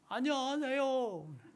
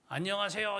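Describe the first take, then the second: First: It is mumbled, like a toothless old man. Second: It is said clearly, with normal articulation.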